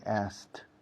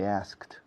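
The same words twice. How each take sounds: First: The k sound is dropped before the t. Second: The k sound is clearly pronounced before the t. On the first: "I say asked, asked. Salto la K" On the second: "I don't say asked"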